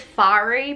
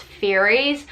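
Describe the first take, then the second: First: "fairy" with an open AH vowel, FAH-ree; own pronunciation. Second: "fairies" with an AIR vowel, FAIR-eez; standard pronunciation. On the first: Reviewer giving her own way of saying the book's creatures, own pronunciation. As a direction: say "fairy" as FAH-ree, avoiding the AIR sound. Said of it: "I pronounce it as fairy". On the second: Reviewer showing how the book's fairies are meant to be pronounced, standard pronunciation. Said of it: "they're meant to be pronounced fairies". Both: Shown as a demonstration.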